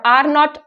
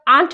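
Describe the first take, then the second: First: Both words are said in full. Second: The words are contracted into one word. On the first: "नॉट को नॉट ही" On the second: "उसकी sound जो है वो cut off हो जाती है"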